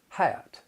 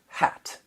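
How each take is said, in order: First: The vowel glides into a schwa-like off-glide. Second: The vowel is short and plain, without a glide.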